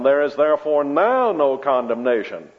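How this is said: The word now carries the main stress. There is no condemnation at present, but maybe later. The speaker calls it wrong. "she was laying stress on"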